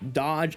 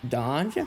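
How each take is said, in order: First: It is said as an exclamation. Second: It is said as a question.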